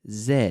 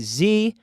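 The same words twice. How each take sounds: First: The letter is said the non-American way. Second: The letter is said the American way. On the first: "Everywhere else in the world, English speakers say Z, including Canada" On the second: "In the United States, they say Z"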